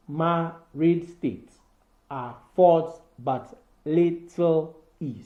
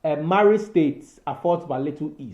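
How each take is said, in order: First: Slow, with each beat of "married state affords but little E" marked; scanning the meter. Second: Said in the usual way. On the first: Shown as a demonstration. Teacher scanning the line for students, slowly stressing each beat. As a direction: drag it out so the da-dum pattern shows. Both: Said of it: "five metric feet with each unstressed syllable followed by one".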